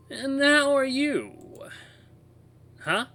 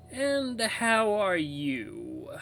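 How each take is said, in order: First: Very high, loud, drawn-out woman's voice. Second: High, very drawn-out, airy woman's voice. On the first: Distorted toy radio greets the narrator, high woman's voice. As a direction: voice a woman through an old radio, very slowly. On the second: Toy radio repeats itself to the narrator, airy woman's voice. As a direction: repeat it slower and airier, like a distorted woman. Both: Acted. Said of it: "sounds like a woman's voice".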